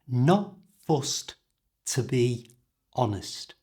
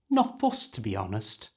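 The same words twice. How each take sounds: First: The phrase is said slowly and carefully. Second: The phrase is said at normal speed.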